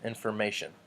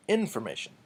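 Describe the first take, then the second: First: Said in the usual way. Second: "information" with the stress moved to the first syllable, IN; wrong-syllable stress. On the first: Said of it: "We don't say". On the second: Shown as a demonstration. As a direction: punch the IN of "information". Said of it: "put the wrong emphasis".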